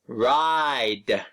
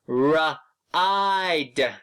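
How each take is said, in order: First: The word is blended smoothly and said quickly. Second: The word is broken into separate sounds. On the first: "say the word fast" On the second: "sound out first"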